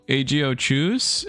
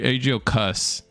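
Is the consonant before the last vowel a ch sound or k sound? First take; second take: ch sound; k sound. First: The middle consonant is a ch sound. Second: The middle consonant is a plain k sound. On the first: The speaker calls it right. "There is no way that H is silent" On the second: The speaker calls it wrong. "Cuss has definitely got to be wrong"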